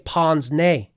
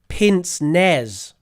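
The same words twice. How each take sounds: First: It is said with a French-style pronunciation. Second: It is said with an English-style spelling pronunciation. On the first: The speaker calls it right. "we actually use the French pronunciation for that word" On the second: The speaker calls it wrong. "I said it's something like pince nez. And I found out that's wrong"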